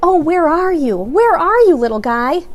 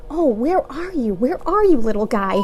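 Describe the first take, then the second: First: Tearful calling. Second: Muffled sad. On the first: James crying, narrator repeats line. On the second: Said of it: "talking to himself, muffled". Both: A narrator's reading.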